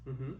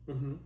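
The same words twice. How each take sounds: The two takes are said the same way.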